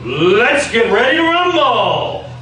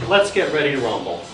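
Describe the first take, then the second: First: It is said loudly with lots of energy. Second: It is said quietly with little energy. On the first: The speaker calls it right. "That does something for you, doesn't it?" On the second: The speaker calls it wrong. "Doesn't do a lot, does it?"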